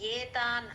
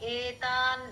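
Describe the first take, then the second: First: The word begins with a y sound before the vowel. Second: The word begins with a plain vowel from the throat. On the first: The speaker calls it wrong. "ఏతాన్ అని అనకూడదు. ఏ అంటే వయ్యి sound లో రాకూడదండి" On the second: The speaker calls it right. "Just ఈ sound. ఏతాన్ నహంతు అని రావాలి"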